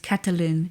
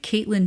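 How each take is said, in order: First: It is said with a French accent. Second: It is said with an American accent. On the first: The speaker calls it right. "the closest thing I can say to what I think is accurate" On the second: The speaker calls it wrong. "if I speak it like an American"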